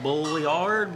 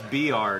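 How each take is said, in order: First: The name is sounded out letter by letter, 'Bulliard'. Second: The name sounds like the single word 'beard'. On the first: This is how people read it from the spelling. The speaker calls it wrong. "If you look at it, you're like Bulliard" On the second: This is how the family actually says it. The speaker calls it right. "It's Beard is how it's pronounced"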